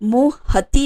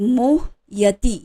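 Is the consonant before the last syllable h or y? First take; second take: h; y. First: The middle consonant is an h sound. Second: The middle consonant is a y sound. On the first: The speaker calls it wrong. "ह नहीं है, मोह हति नहीं" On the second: The speaker calls it right. "मोह यति, यमराज का य"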